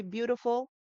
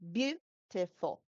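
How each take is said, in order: First: "beautiful" stressed on BEAU; correct stress. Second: "beautiful" stressed on the second syllable, slow; wrong stress. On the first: Shown as a demonstration. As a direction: hit the first syllable of "beautiful". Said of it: "We say". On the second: Retold or imitated. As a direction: imitate learners misplacing stress in "beautiful". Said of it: "sometimes they have".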